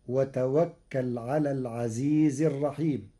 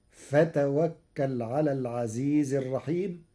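First: Teacher recites وتوكل with waw first; Hafs reading. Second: Teacher shows فتوكل starting with fa; Warsh reading. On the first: الشيخ يقرأ وتوكل بالواو. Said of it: "قرأ ورش كلمة وتوكل". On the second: الشيخ يقرأ فتوكل بالفاء. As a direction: recite فتوكل with fa instead of waw. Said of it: "قرأ ورش كلمة وتوكل بالفاء بدل الواو". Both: Shown as a demonstration.

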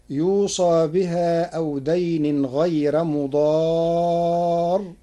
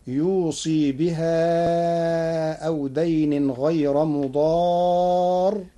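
First: Said in the usual way. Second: يوصي with a long ee after sad; kasra on the sad of يوصي. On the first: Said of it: "قرأ ورش كلمة يوصى". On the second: Shown as a demonstration. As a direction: recite yusee with ee, stretching the madd slowly. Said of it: "بكسر الصاد".

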